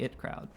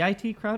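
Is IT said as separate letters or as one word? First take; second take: word; letters. First: IT is said as the single word it. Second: IT is spelled out as two letters. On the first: "the it crowd" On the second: "pronounced I T"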